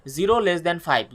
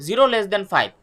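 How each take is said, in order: First: Stretched out slowly, word by word; slow dictation. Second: Said in the usual way. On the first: Shown as a demonstration. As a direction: read the condition slowly for notes.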